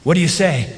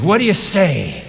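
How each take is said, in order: First: Said in the usual way. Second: Louder call for response. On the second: Real, not acted. Preacher asking the congregation again, louder. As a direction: push the crowd to answer back louder. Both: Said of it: "That's pretty weak".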